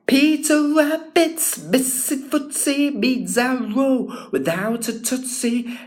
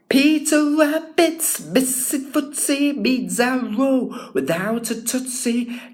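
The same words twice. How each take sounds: First: Every T sound is crisply pronounced. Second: Every T sound is crisply pronounced.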